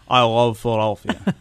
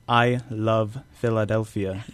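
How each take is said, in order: First: The L's are swallowed in the back of the throat. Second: The L's are made with the tongue at the teeth. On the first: "You'd say I love Philadelphia" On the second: "you wouldn't say I love Philadelphia"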